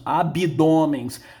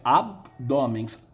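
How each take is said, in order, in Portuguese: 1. Uma vogal extra i é ouvida depois do b. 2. O b vai direto para o d, sem vogal. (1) "na língua coloquial falamos abdômens. Nós colocamos um i aí" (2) "a pronúncia correta é abdômens"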